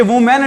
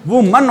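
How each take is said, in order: First: Put-on "वुमेन" said with a long "men" ending, as many kids say it; wrong pronunciation. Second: "वुमन" said as voo-mun with a short weak second vowel; correct pronunciation. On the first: Teacher showing students the wrong way to say woman, plainly. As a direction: say "वुमेन" like voo-men, the common mistake. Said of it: "बहुत सारे बच्चे वुमेन बोलते हैं". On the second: Teacher correcting students' pronunciation of woman, plainly. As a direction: say "वुमन" with a quick unstressed mun. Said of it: "ये वुमेन नहीं होता". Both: Shown as a demonstration.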